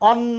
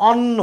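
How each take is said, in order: No difference in how they are said.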